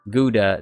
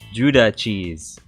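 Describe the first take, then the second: First: The word begins with a hard G sound. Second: The word begins with a J sound. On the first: "I've always heard people pronounce it Gouda" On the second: "Is it pronounced like a J?"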